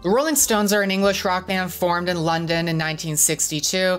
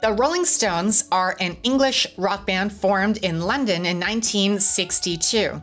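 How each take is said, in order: First: The voice is low, flat and unexcited. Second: The voice is higher, lively and more excited.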